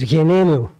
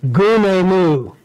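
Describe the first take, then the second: First: It is said in the modern Greek style. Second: It is said in the Bible-college style. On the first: The speaker calls it right. "the modern Greek pronunciation is" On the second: The speaker calls it wrong. "if you're in Bible college, they teach you to say"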